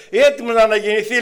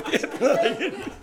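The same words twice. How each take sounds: First: Said in the usual way. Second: Higher, laughing scoff at the claim; a sister mocking the claim, higher and laughing; mocking retort. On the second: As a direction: tease it with a laugh. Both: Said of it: "λέει μια αδερφή".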